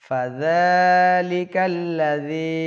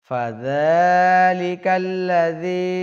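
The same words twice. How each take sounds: No difference in how they are said.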